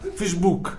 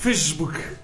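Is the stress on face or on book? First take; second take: book; face. First: The stress is on the second syllable. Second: The stress is on the first syllable. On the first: The speaker calls it right. "con l'accento sulla hook" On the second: The speaker calls it wrong. "No, più bello"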